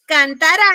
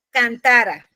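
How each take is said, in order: First: Cantará loud, rising onto the final RÁ; stress on cantaRÁ. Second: Cantara with TA stressed and the ending falling. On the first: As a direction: punch the last syllable of cantará. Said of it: "yo en vez de decir". (cantará con la última sílaba fuerte) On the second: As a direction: lean on the middle syllable, let cantara fall off. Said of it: "estaría diciendo". (cantara con acento en la penúltima sílaba) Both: Shown as a demonstration.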